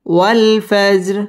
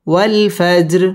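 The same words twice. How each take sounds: The two takes are said the same way.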